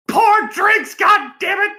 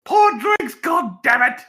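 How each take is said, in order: First: High shouted bad Australian accent. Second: Shouted attempt at Australian accent. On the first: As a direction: yell it in a hammy Australian accent. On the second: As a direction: bark the order in a weak Australian accent. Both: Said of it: "I can't really do an Australian accent".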